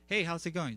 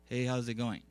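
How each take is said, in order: First: The pitch moves up and down naturally. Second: The pitch stays flat throughout. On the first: The person is speaking spontaneously. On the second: The person is reading from a script.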